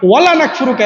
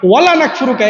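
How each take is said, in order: First: The vowel after the L is kept short. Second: The vowel after the L is kept short.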